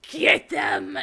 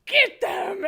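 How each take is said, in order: First: Loud command at the same pitch; scare command. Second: Much higher and louder, a desperate yell; scare command from the floor. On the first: Scare actor commanding the golem to chase guests, loud. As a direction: order your partner to chase them. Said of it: "be like". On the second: Fallen scare actor yelling at her partner to chase the guests, high and loud. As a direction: shout the order while sprawled on the floor. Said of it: "and I'm like". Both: Retold or imitated.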